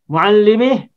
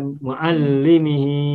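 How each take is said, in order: First: The final vowel is dropped at the stop. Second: The final vowel is held long. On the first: The reader stops on this word. "tidak panjang kalau di wakaf" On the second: The word is read on, without stopping. "hi-nya hi domir mutasil ini menjadi mad panjang"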